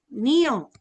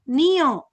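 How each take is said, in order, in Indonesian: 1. Ni dan yo diucapkan sebagai dua suku kata terpisah. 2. Ni dan yo diucapkan sebagai dua suku kata terpisah.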